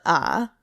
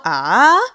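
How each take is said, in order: First: "ah" kept low with a small dip; correct third tone. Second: Loud "ah" swooping widely upward; wrong third tone. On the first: Teacher showing the proper third tone, low dipping "ah". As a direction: hold "ah" down low and creaky, barely lifting. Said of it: "but ah". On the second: Teacher showing what not to do, over-swooping loud "ah". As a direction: overdo "ah" with a big loud rise. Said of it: "you're not gonna go". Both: Shown as a demonstration.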